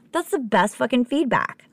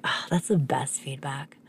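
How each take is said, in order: First: Higher-pitched, gleeful insistence; voiced, high-pitched enthusiasm; emphatic delight. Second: Slow, whispery, touched reaction; awed near-whisper; hushed delight. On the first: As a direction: say it again fully voiced and thrilled. Repeats delighted reaction with emphasis. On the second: Retold or imitated. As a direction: breathe it out softly, savoring it. Retells delighted reaction to compliment.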